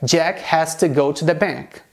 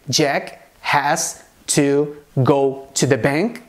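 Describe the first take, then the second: First: The words 'has to' are run together and reduced. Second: The words 'has to' are said fully and separately. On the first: This is the more usual everyday form. "a forma mais habitual" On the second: This form is acceptable but less common. "Você pode dizer"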